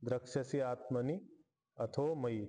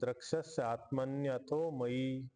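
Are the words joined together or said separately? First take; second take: separate; joined. First: Each word is pronounced separately without joining. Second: The words are run together with sound joining. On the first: "असं वेगळं वेगळं करून उच्चारण घेऊयात" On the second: "ह्याला आपण संधी केलेली"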